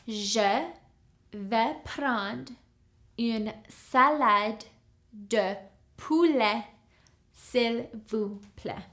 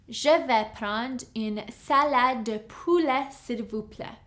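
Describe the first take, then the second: First: It is said a little more slowly. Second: It is said at a normal speed.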